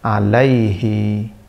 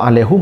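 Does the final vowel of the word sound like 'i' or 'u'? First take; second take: i; u. First: The word ends with an 'i' vowel. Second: The word ends with a 'u' vowel. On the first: The reading is light and easy. "kasrah dengan ya sakinah itu menjadi ringan" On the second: The reading is heavy. "Kalau alaihu menjadi berat"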